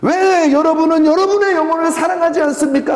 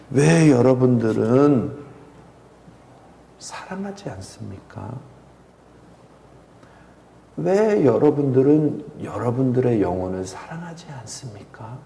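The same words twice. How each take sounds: First: High, loud imitation of a weeping pastor's cry; impassioned tearful outcry. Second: Hushed, slow, tearful question; mild weeping plea. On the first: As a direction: wail the question at the congregation. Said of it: "하고 우시더라고요". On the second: Retold or imitated. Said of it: "하고 우시는 거예요".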